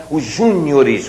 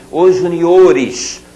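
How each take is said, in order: First: "Os júniores" stressed on the first syllable JÚ. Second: "Os juniores" stressed on the O, ju-ni-O-res; slow corrective "Os juniores", long stressed O. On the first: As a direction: mistaken stress, JÚ-nio-res in "Os júniores". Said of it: "o que tá errado". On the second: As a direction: model "Os juniores" slowly, leaning on the O. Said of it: "Essa é a pronúncia". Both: Shown as a demonstration.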